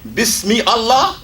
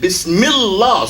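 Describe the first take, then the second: First: The two words are said separately. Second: The two words are linked into one. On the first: The speaker calls it wrong. "instead of saying Bismi Allah" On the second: The speaker calls it right. "we say Bismillah. So we take the mi from Bismi and connect it to Allah"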